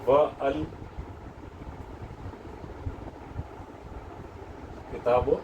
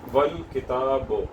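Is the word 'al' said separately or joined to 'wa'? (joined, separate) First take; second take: separate; joined. First: 'Al' is said separately with its own vowel. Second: 'Wa' runs straight into 'l' without a vowel. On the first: The speaker calls it wrong. "तो ये इनकरेक्ट है" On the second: The speaker calls it right. "ये करेक्ट है"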